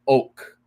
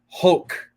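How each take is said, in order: First: The word begins directly with the vowel sound. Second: The word begins with an audible H sound. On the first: The speaker calls it right. "No pronunciation, no pronunciation of the H" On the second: The speaker calls it wrong. "the incorrect pronunciation"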